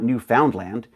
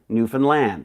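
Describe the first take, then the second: First: The last syllable does not rhyme with grand. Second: The last syllable rhymes with grand. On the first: The speaker calls it wrong. "it's not Newfoundland" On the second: The speaker calls it right. "you got to say it like this. Isn't it grand?"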